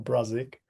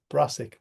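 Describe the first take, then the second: First: "Brassic" with a buzzing z in the middle; wrong pronunciation. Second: "Brassic" with a hissing s in the middle; correct pronunciation. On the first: Showing how not to say it, wrong pronunciation. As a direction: mispronounce "Brassic" as brazzic. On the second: Explaining the word to a listener, correct pronunciation. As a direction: say "Brassic" with an s sound, not z. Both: Shown as a demonstration. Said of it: "it's pronounced Brassic, not Brassic".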